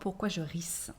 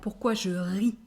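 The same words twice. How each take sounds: First: The word ends with an audible S sound. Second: The word ends on the vowel, no S. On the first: The speaker calls it wrong. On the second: The speaker calls it right.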